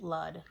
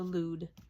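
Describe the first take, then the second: First: The vowel in the name is short. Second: The vowel is a long oo sound. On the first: The speaker calls it wrong. "I was pronouncing it Lud" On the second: The speaker calls it right. "Lude, like dude, only with an L"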